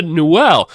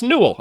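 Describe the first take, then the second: First: Newell stressed on the second syllable, "-ell"; mispronounced surname. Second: Newell run together, close to "nool"; corrected pronunciation. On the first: Real, not acted. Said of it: "I've been saying it wrong". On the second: Shown as a demonstration. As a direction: say Newell as NOO-ul, weak ending. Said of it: "No, it's pronounced Newell".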